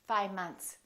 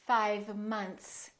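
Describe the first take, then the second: First: The V sound is dropped. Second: The V sound is clearly pronounced. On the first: The speaker calls it wrong. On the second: The speaker calls it right.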